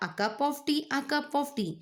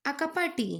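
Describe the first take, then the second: First: "cup of tea" shaped with care; "A cup of tea" carefully demonstrated; "A cup of tea" clearly said as a model. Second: "cup" flattened into "ka pa"; "A cup of tea" said wrongly, longing. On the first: Shown as a demonstration. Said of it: "Now try it again". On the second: Acted.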